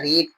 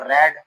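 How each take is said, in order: First: The vowel is long, like 'reed'. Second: The vowel is short, like 'red'. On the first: "रीड रीड ही रहेगा" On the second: "बस बोलने का उच्चारण थोड़ा अलग हो जाता है। रीड को रेड"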